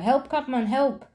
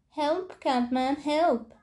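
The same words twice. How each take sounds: First: Kinderen gillen om hulp. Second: High, slow, drawn-out cry for help; kinderen gillen om hulp. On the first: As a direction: shout it urgently at the window. (hoog, iets luider hulpgeroep) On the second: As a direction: call out like a frightened child far off. (hoog en langgerekt hulpgeroep) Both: Acted. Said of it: "te gillen".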